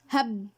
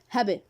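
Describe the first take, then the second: First: The final b stops with no echo. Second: The final b is released with an echo. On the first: "I didn't do this here now" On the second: "with qalqala sound, with echo sound"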